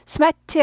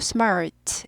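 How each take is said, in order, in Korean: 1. R 소리는 꼬부라지지 않아요. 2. 분명한 R 소리를 내려면 혀가 꼬부라져요. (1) "smart 아니고" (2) "R이 있으니까 꼬부리죠"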